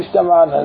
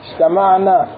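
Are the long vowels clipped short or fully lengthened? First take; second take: clipped; lengthened. First: The long vowels are clipped short and rushed. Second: The long vowels are given their full natural length. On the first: The speaker calls it wrong. "نحن ما لنا نسوان" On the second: The speaker calls it right. "اجتمعنا مو اجتمعنا"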